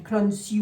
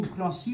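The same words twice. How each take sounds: First: "Clancy" with the n pronounced, klann-si; Clancy with sounded N. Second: "Clancy" the French way, nasal an and no sounded n; Clancy with nasal vowel. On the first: Reader offering a first way to say the surname, "Clancy" with sounded n. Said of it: "je sais pas si on dit". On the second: Reader offering the other way to say the surname, "Clancy" with nasal an. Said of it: "si on dit Clancy ou Clancy". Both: Shown as a demonstration.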